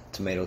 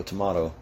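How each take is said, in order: First: "tomato" said to-MAY-to, long AY vowel; tomayto. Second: "tomato" said to-MAH-to, open AH vowel; tomahto. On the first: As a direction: say "tomato" with a long AY sound in the middle. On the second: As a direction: say "tomato" with a broad AH in the middle. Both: Shown as a demonstration. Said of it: "But hey, man, tomato".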